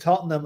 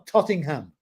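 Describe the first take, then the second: First: The name is said without an 'ing' sound. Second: The name is said with an 'ing' sound. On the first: "somebody pronounced Tottenham" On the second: "that's the way he did it"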